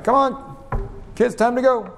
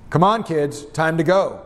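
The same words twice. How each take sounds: First: Put-on high, coaxing call to children. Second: Command. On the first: Parent calling kids that it's time to go, calling. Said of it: "difference between a call and a command". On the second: Parent telling kids it's time to go, commanding. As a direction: order the kids to leave, no coaxing. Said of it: "your inflection". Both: Shown as a demonstration.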